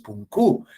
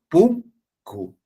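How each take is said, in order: First: The stress is on the second syllable. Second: The stress is on the first syllable. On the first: The speaker calls it wrong. "no es" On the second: The speaker calls it right.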